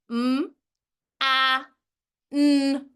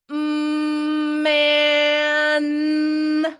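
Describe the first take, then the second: First: Each sound is said apart with breaks. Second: The sounds run together without any breaks. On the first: The speaker calls it wrong. "This is segmented uh, phonation" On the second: The speaker calls it right. "That's continual phonation"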